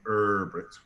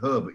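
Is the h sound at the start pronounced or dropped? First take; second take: dropped; pronounced. First: The word starts without any h sound. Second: The word starts with an audible h sound. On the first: The speaker calls it wrong. "You don't call him Herbert" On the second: The speaker calls it right. "you call him Herbert"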